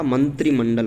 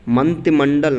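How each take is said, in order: First: मंत्रिमंडल with a clear "tri"; मंत्रिमंडल said as "mantri-mandal"; correct form. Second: मंत्रिमंडल with the r dropped; r-less "manti" in मंत्रिमंडल; wrong form. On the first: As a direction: sound the r in मंत्रिमंडल. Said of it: "मंत्रिमंडल होता है". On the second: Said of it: "मंत्रिमंडल नहीं होता". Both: Shown as a demonstration.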